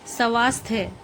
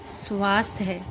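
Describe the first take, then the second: First: स्वास्थ्य said as sa-vaastya with an extra vowel; wrong pronunciation. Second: स्वास्थ्य as one cluster, svaasthya; correct pronunciation. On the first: (स्वास्थ्य का गलत उच्चारण) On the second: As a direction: say स्वास्थ्य with sv together. (स्वास्थ्य का शुद्ध उच्चारण) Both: Shown as a demonstration. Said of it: "इसको हम बोलेंगे".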